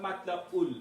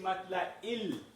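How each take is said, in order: First: The word ends with a 'u' vowel sound. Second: The word ends with an 'i' vowel sound. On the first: The speaker calls it wrong. "Not matla ul" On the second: The speaker calls it right. "see matla il"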